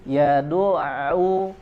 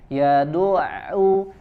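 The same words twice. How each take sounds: No difference in how they are said.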